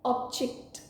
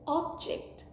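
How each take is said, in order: First: The stress is on the second syllable. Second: The stress is on the first syllable. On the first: It is a verb meaning to disagree. "which means to disagree" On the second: It is a noun meaning a thing. "meaning a thing"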